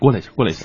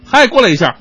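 First: It is said quietly, as if very close. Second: It is said at medium volume.

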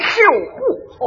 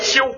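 First: It is said in a Shandong accent. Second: It is said in a standard Beijing accent.

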